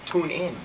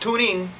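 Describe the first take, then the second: First: It sounds like two separate words, tune in. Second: It sounds like the single word tuning. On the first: The speaker calls it right. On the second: The speaker calls it wrong. "Not tuning"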